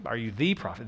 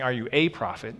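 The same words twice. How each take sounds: First: "the" said as "thee" and stressed, falling. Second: "a" pronounced long "ay" and stressed, falling. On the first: Preacher correcting the question, stress on "the". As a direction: hit the word "the": the one prophet. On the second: Preacher contrasting the question, stress on "a". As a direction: lean on the word "a" like any old prophet. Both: Shown as a demonstration. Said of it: "they're not saying".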